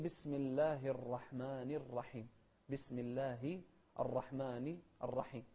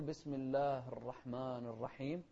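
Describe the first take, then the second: First: الله and الرحمن each ending in a clear short i; clear kasra. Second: الله and الرحمن with their final i swallowed; slow, but leave off the endings of الله and الرحمن; dropped vowel mistake. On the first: Shown as a demonstration. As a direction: slowly sound -hi in الله and -ni in الرحمن. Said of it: "لا، نوضح". (إظهار كسرة الله و الرحمن) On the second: Retold or imitated. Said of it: "ما نقول". (تسكين آخر الله و الرحمن خطأً)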